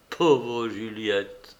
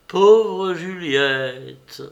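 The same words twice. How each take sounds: First: Sorrowful lament. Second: Slow, louder, higher anguished cry; breaking into tears. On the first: Lover weeps over Juliette. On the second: Léonie weeps over Juliette, slow and loud. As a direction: let the grief break out. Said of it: "il versa un torrent de larmes". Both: A narrator's reading.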